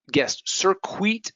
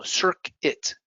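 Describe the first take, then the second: First: "circuit" said SIR-kwit, U pronounced; slow high "circuit" with a kw; wrong, U sounded. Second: "circuit" said SIR-kit, silent U; slow correct "circuit"; correct form. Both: Shown as a demonstration. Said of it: "no, circuit".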